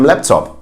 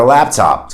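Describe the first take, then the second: First: LAPTOP as "LEP-top" within German; German accent on LAPTOP; German-accented English. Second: Said in the usual way. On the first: Shown as a demonstration. Teacher acts a German reply, German accent. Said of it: "but with a German accent". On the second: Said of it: "we don't pronounce it as computer or laptop".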